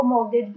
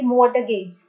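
First: मॉर्गेज said "mor-gej", the t silent; right take of मॉर्गेज. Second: मॉर्टगेज with the t sounded, the wrong way; the wrong "mort-gage"; wrong take of मॉर्टगेज; wrong pronunciation. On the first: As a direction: correct मॉर्गेज with no t. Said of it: "मॉर्गेज बोलते हैं ना कि मॉर्टगेज". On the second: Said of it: "ना कि मॉर्टगेज". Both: Shown as a demonstration.

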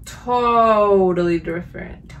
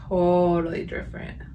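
First: Slow, louder, each syllable leaned on; emphatic verdict. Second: Said in the usual way. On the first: Real, not acted. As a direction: stretch out totally for emphasis. Repeats verdict, first take emphatic.

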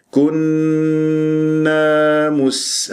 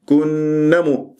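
First: Very slow, level كنا مس with long final a; correct lengthened alif. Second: كنا مو with hummed n but clipped final a; wrong short alif. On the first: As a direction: hum the nn of كنا long, hold the a, then close on مس. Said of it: "هكذا بهذه الطريقة". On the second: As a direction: cut the a of كنا short before مو, as a mistake. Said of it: "خطأ". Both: Shown as a demonstration.

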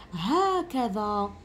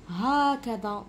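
First: هكذا with the long a after ha stretched out very slowly; drawn-out vowel. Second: Said in the usual way. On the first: Shown as a demonstration. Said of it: "بصح مانيش نكتب الألف".

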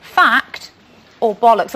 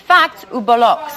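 First: Said in the usual way. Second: Mock French pronunciation of "fact ou bollocks"; French accent. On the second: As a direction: put on a playful French accent. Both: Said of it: "Or as the French would say".

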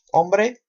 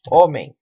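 First: Said in the usual way. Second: "homem" with silent h and nasal ending; Portuguese pronunciation. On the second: Shown as a demonstration. Teacher shows silent H in Portuguese, Portuguese pronunciation. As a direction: say "homem" as OH-meng. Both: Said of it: "Portugués decimos homem".

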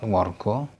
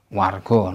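First: "wargo" said "wor-gaw", first vowel rounded o; "wargo" with o before the r; wrong O vowel. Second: "wargo" said "war-gaw" with an open ah as in "car"; "wargo" with ah before the r. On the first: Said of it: "not wargo". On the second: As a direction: open the first vowel of "wargo" to "ah". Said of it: "A followed by R is always pronounced". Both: Shown as a demonstration.

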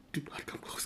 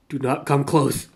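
First: Breathless whispered plea; hushed pleading whisper; frightened whisper. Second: Said in the usual way. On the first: Real, not acted. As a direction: whisper it so it won't hear. Warning the creature.

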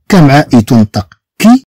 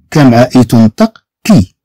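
No difference in how they are said.

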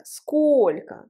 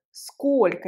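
First: Said in the usual way. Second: Сколько said slowly, first O hit hard: SKOL-ko; slow teacher demo, leaning on the first syllable of сколько; сколько, stress on the first O, drawn out. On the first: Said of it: "où est l'accent tonique dans le mot сколько?". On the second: Shown as a demonstration. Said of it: "L'accent tonique sur le premier O".

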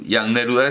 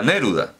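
First: "Jan Neruda" with "Neruda" stressed on the first syllable "ne"; Czech stress. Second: "Neruda" stressed on the middle syllable "ru", the Spanish way. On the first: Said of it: "tienen el acento en la primera sílaba". ("Neruda" con acento en la primera sílaba, a la checa) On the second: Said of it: "en checo todas las palabras, eh, tienen el acento en la primera sílaba". ("Neruda" con acento en "ru", a la española) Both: Shown as a demonstration.

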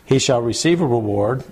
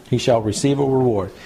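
No difference in how they are said.

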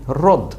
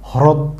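First: হ্রদ said rod, no h sound; হ্রদ as plain rod; right rod. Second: হ্রদ with a full h sound, louder; wrong hrod. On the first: Teacher models the right reading of হ্রদ. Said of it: "ওটাই হচ্ছে কি". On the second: Teacher shows the wrong way to read হ্রদ. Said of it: "ভুল". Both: Shown as a demonstration.

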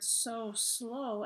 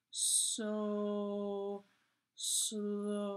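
First: Said in the usual way. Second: "So... slow", each word stretched long on a level pitch; drawn-out words. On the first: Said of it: "it's spread out, so you're supposed to say it". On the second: Shown as a demonstration. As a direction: spread out "So" and "slow", with a pause between. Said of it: "so you're supposed to say it".

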